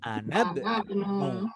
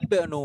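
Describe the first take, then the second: First: The i is dropped, linking to the previous word. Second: The word starts with a clearly pronounced i. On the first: The word falls in the middle of the sentence. "karena di tengah kalimat maka langsung disambung" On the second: The word begins the sentence. "ini yang pertama bisa dibaca jelas i"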